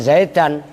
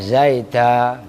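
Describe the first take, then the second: First: The word ends with the full -an ending. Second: The word ends with a plain vowel, no n. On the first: This is the original form. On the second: This is the pausal form at the end of a sentence.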